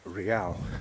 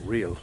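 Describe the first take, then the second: First: It is said with a Spanish pronunciation. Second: It is said with an English pronunciation.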